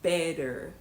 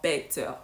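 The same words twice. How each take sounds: First: The middle T becomes a soft D. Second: The middle T is pronounced fully. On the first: "an American is more likely to say" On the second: "instead of ... better"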